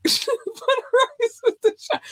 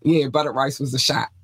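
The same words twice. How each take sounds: First: Laughing falsetto echo of the line; high laughing repeat. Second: Said in the usual way. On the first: Pretend. Host cracking up repeating the buttered rice line, squealing high.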